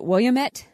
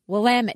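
First: It is said the way the spelling suggests. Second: It is said the way locals say it. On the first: The speaker calls it wrong. "It looks like you would pronounce it Willamette" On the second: The speaker calls it right. "if you go there, they will quickly tell you Willamette"

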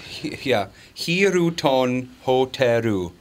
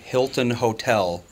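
First: Japanese-style sounds, with extra vowels added. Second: Plain English sounds, with no extra vowels. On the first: This is how a local driver would understand it. The speaker calls it right. "it's Hiroton Hoteru" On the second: A local driver would not understand it. The speaker calls it wrong. "Not Hilton Hotel. They're not going to know what you're saying"

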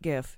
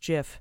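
First: It begins with a hard G sound. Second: It begins with a soft G sound. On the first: The speaker calls it wrong. "It's not GIF" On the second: The speaker calls it right. "it's a soft G, like GIF"

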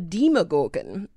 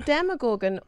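First: The first part sounds like 'demon'. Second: The first part sounds like 'demo'.

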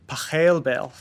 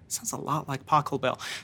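First: The name is said the original German way. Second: The name is said the familiar American way. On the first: The speaker calls it right. "the real pronunciation of his name, it's Pachelbel" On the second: The speaker calls it wrong. "this sounds a lot like Pachelbel"

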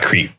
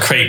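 First: The word sounds like 'creep'. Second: The word does not sound like 'creep'. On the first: The speaker calls it wrong. "not crepe" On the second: The speaker calls it right. "So it's called crepe"

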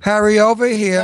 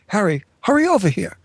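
First: The line is spoken flatly, like reading written lines. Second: The line is spoken expressively, like a character talking. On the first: Lines are just being read out. The speaker calls it wrong. "Jimmy does it this way" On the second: The character is really speaking. The speaker calls it right. "I would say it this way"

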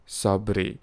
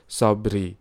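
The two takes are said the same way.

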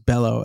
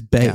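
First: The middle consonant is an L sound. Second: The middle consonant is a Y sound. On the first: The speaker calls it wrong. "it was Bello, as in Brian Fellows" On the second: The speaker calls it right. "It is Bayo"

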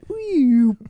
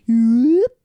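First: The pitch goes down across the sound. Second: The pitch goes up across the sound. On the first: "which is obviously going down" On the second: "that's going up"

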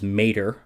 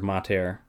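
First: It is said like the cartoon tow truck's name. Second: It is said with classical Latin vowels. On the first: The speaker calls it wrong. "Like it's a fucking Cars character voiced by Larry the Cable Guy" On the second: The speaker calls it right. "as someone who studied classical Latin"

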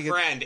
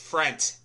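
First: The word ends with a d sound. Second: The word ends with a t sound. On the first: The speaker calls it wrong. "It's not friend" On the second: The speaker calls it right. "it's frent. Like F-R-E-N-T"

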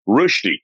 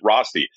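First: The name is said the Swiss way. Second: The name is said the Western way.

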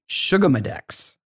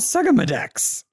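First: The first part sounds like the word 'sugar'. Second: The first part does not sound like 'sugar'.

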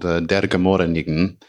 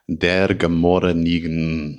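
First: The title is said at normal speed. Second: The title is said slowly and deliberately.

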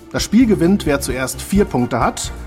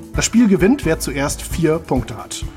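Both takes have the same delivery.

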